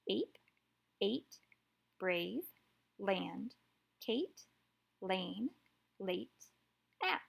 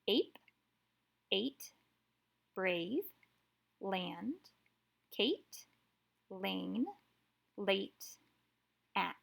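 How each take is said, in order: First: The words are read at a faster pace. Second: The words are read at a slower pace.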